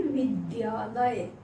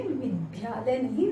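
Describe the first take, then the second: First: विद्यालय drawn out slowly, every syllable clear; correct pronunciation. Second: विद्यालय said the wrong way, a bit slowly; wrong pronunciation. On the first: Teacher giving students the right way, slow and careful. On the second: Teacher showing students the wrong way, then saying it. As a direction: show the mistake in विद्यालय before correcting it. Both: Shown as a demonstration. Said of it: "इसका उच्चारण भी सही कीजिए".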